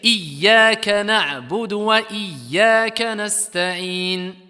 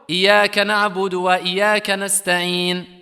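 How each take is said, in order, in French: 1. Le son y dans le premier mot est doublé. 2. Le son y dans le premier mot est simple. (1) "en mettant la shadda, en doublant la lettre" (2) "La shadda qui a été enlevée"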